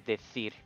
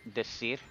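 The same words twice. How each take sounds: First: The c is pronounced like a th. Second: The c is pronounced like an s. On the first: "I would say decir with a th sound" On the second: "your father might say"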